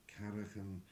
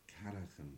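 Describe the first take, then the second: No difference in how they are said.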